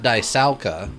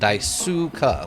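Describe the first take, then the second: First: The middle syllable sounds like 'sow'. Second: The middle syllable sounds like 'sue'. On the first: The speaker calls it wrong. "So not Daisauka" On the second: The speaker calls it right. "but Daisuka, like sue the person"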